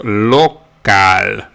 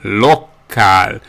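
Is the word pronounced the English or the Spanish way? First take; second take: Spanish; Spanish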